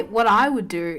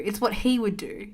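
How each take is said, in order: First: "I" picked out against "he"; stress on I. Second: "he" picked out against "I"; stress on HE. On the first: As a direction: lean on the word "I". Contrasts herself with partner. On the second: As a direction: lean on the word "he". Contrasts partner with herself. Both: Real, not acted.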